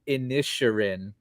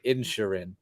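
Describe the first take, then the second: First: The name does not sound like insulin. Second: The name sounds much like insulin. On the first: The speaker calls it right. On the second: The speaker calls it wrong. "almost like the diabetic medication you need"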